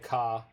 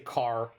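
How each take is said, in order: First: The final R sound is dropped entirely. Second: The final R sound is clearly pronounced. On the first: This is how English people say it. "the English say ka" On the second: This is how North Americans say it. "we say car"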